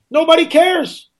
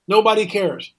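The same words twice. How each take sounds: First: High, drawn-out exasperated cry; indignant outburst. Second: Said in the usual way. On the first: Real, not acted. Host lamenting missing public outrage to listeners, high exasperated cry. Rant peaks, line repeated lower.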